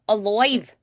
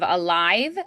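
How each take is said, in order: First: The stressed vowel sounds like 'oi'. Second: The stressed vowel sounds like 'eye'. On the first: "we usually say oi instead" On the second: "instead of"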